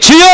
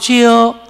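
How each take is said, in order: First: It is shouted loudly and strongly. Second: It is said weakly, like a dying voice.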